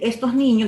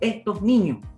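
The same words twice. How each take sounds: First: The s in 'estos' is fully pronounced. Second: The s in 'estos' is aspirated, Andalusian style.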